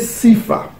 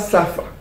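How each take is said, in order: First: The first vowel sounds like 'i'. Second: The first vowel sounds like 'a'. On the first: The speaker calls it right. "Ça se prononçait Sifa" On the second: The speaker calls it wrong. "ça ne se prononçait pas Safa"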